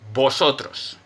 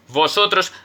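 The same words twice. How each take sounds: First: The first sound is a B, both lips together. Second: The first sound is a V, lips on teeth. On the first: "It sounds like a B" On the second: "vosotros with a V"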